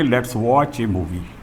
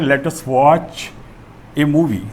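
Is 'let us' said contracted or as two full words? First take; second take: contracted; full. First: Let us is contracted into one syllable. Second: Let us is said as two full words. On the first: "इसको हम बोलते समय बोलेंगे" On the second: "जैसे हमारा sentence है"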